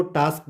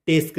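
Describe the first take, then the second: First: टास्क with a long open 'aa'; correct vowel. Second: टेस्क with an 'ay' vowel; wrong vowel. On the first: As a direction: say टास्क with 'aa', not 'ay'. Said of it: "हमने इसको टास्क पढ़ना है". (टास्क में 'आ' की आवाज़) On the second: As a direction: say टेस्क with 'ay', as the mistaken reading. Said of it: "नहीं पढ़ना है". (टेस्क में 'ए' की आवाज़) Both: Shown as a demonstration.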